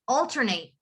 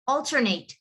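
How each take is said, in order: First: The last syllable is a full, stressed 'ate'. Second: The same.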